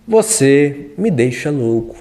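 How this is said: It is said in a calm tone. "Diga calmo"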